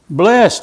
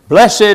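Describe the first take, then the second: First: The word is said in one syllable. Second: The word is said in two syllables. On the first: "But it just says blessed" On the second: "I'd put a little pause in there before the ED"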